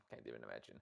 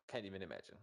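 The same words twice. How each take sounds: First: "Can't even imagine" dropped much lower and softer; mock deep mutter. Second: Said in the usual way. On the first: Teasing the older caster in a deep, soft mock mutter.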